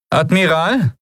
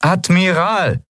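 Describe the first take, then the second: First: High-pitched call to a superior; first, less demanding call; questioning address. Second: High, slow, insistent call; insistent, high-pitched summons; more demanding. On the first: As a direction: address the officer, pitched well up. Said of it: "wiederholte Aran erneut". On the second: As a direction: demand the officer's attention, drawing the word out. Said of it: "diesmal fordernder". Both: A narrator's reading.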